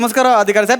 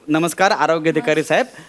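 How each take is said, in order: First: It is said fast. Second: It is said slowly.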